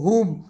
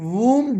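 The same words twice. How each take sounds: First: The w sound is silent at the start. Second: The w sound is heard at the start.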